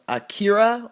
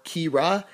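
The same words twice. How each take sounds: First: "Akira", offered as one possible pronunciation; alternative pronunciation. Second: "Kira", offered as the other possible pronunciation; alternative pronunciation. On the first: Reviewer unsure of a new minifigure's name, tentative pronunciation. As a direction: say "Akira" as the first guess at the name. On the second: Reviewer correcting to another possible name reading, alternative pronunciation. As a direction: say "Kira" as the second guess at the name. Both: Shown as a demonstration. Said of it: "however you pronounce it".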